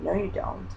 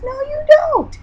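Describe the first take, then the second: First: Soft, dismissive little voice in her head; the inner voice quietly says no. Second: Much higher, louder mock-shrill refusal; the inner voice shrieks its denial. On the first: Retold or imitated. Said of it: "was in the back of my head said". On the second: Arguing back with inner voice.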